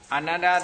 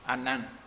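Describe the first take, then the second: First: The name ends with a final vowel sound. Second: The name ends on a bare consonant.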